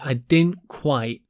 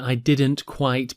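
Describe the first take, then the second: First: The T sounds are dropped. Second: The T sounds are fully pronounced.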